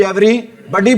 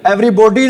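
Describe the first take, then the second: First: Said in the usual way. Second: Everybody with an O sound, "every-BO-dee"; Everybody said as "every-bodee" with round O; wrong pronunciation demo. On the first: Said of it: "Everybody बोलते हैं". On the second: Shown as a demonstration. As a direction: mispronounce Everybody, rounding "buh" into "bo". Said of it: "Everybody नहीं बोलते".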